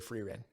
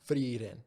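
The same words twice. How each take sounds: First: The r is a plain English r. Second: The r is a quick tongue tap. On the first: "We don't do tongue flicks for ours. So I'm gonna say frieren" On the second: "not a full roll, just a flick"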